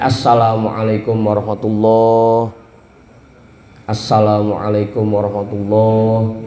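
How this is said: The two greetings are separated by a pause.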